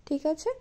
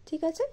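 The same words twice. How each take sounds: The two takes are said the same way.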